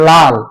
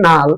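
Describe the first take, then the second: First: The word begins with an l sound. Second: The word begins with an n sound. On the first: "আমি যদি বলি লাল, এখানে দুইটা ল" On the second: "আমার উচ্চারণ ভুলের কারণে বলতেছি নাল"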